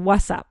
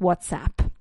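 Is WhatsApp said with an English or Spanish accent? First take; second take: Spanish; English. First: It is said with a Spanish accent. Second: It is said with an English accent. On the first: "Spanish speakers say el WhatsApp" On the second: "marking the ts and the p sound"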